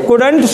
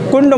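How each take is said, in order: First: The d sound is clearly pronounced before nt. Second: The d sound is blurred into a nasal. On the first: The speaker calls it right. "कुडंट सुडंट बुडंट" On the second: The speaker calls it wrong. "ऐसे नहीं"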